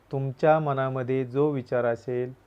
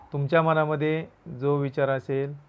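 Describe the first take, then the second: Both takes have the same delivery.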